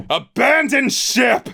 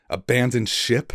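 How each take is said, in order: First: Much higher, much louder, slow bellow; captain bellowing to his crew through the storm; bellowed order. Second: Lightly raised disbelieving echo; incredulous question. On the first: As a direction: roar the order across the deck. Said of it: "he bellowed". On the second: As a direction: echo the order in mild disbelief. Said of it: "stared back at him incredulously". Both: Acted.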